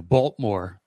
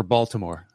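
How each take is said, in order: First: Baltimore squeezed to two syllables, "BOLT-more"; local Baltimore pronunciation. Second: Said in the usual way. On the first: Shown as a demonstration. Podcaster showing how locals say Baltimore, shortened to "Bolt-more". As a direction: drop the middle vowel of Baltimore: "Bolt-more". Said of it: "Now we say it like this here". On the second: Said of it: "variations on little, "Now we say it".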